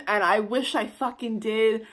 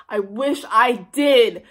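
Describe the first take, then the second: First: Said in the usual way. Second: "did" leaned on, slow and louder; slow emphatic repeat. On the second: Shown as a demonstration. Repeating her regret to viewers, slowly stressing "did". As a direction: drag out "I wish I did" with weight on "did".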